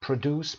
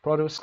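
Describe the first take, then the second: First: Produce stressed on its second syllable, pro-DUCE. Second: Produce stressed on its first syllable, PRO-duce. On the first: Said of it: "به عنوان verb". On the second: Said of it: "قسمت اول چون noun هست". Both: Shown as a demonstration.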